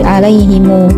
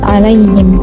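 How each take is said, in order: First: The word ends with an added u vowel. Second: The word ends on the m sound. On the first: This is a variant reading. "dibaca silah oleh Imam Qalun sehingga menjadi alaihimu" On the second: This is the base reading. "lafadz alaihim"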